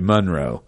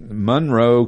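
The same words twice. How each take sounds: First: It is said in a Southern US way. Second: It is said in a plain Northern US way. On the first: It names a place in the South. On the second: It names the town in Connecticut.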